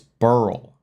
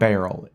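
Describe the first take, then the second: First: The name sounds like the word burl. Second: The name sounds like the word barrel. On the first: The speaker calls it right. "it's burl" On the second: The speaker calls it wrong. "It's not barrel"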